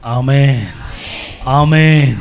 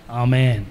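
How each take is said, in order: First: A louder ringing amen; amen raised to a near shout. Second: Said in the usual way. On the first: Real, not acted. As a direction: call amen out to the crowd. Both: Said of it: "కొంచెం గట్టిగా".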